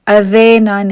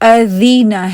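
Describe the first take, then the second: First: The first vowel sounds like an 'e'. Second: The first vowel sounds like a long 'ee'. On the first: The speaker calls it wrong. "ए ना हो, अदेना नहीं है" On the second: The speaker calls it right. "कसरा जो है उसकी आवाज ई ही हो"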